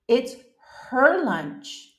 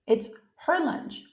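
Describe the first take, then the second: First: It is spoken slowly and deliberately. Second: It is spoken at a normal pace.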